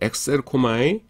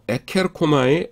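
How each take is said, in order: First: A ks sound is followed by a vowel. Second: A plain k sound is followed by a vowel. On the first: This is the form actually used. The speaker calls it right. "카파를 뭐냐면은 크시로 바꿔줍니다" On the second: This is the unchanged combination of the two parts. The speaker calls it wrong. "그리스 사람들이 에케르코마이라는 발음을 싫어해요"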